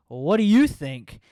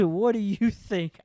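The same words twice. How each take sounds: First: Loud, slow, pointed "what do you think"; deadpan sassy retort. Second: Higher and louder, slow, cracking up; imitating sassy retort. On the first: Retold or imitated. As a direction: hit it loud and slow, palm out at her partner. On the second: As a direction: replay her comeback while half laughing. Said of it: "she says".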